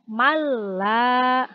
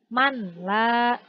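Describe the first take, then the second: First: The n merges fully into a doubled l. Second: The n is pronounced separately before the l. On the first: The speaker calls it right. "dibacanya malla" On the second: The speaker calls it wrong. "tidak lagi manla"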